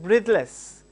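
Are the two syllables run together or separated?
run together. The two syllables are run together. The speaker calls it wrong. "You should not call it as breathless. It's not a word"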